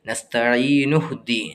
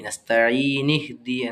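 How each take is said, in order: First: The n is followed by an u vowel. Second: The n is followed by an i vowel. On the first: The speaker calls it right. "നൂനിന് ലൊമ്മ് കൊടുത്താണ് ഓതേണ്ടത്" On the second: The speaker calls it wrong. "കസ്റ് കൊടുത്തൊരിക്കലും പറയാൻ പാടില്ല"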